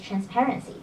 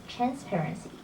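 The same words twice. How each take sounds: First: The stress is on the second syllable. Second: The stress is not on the second syllable. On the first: The speaker calls it right. "The stress is on the second syllable" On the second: The speaker calls it wrong. "not transparency"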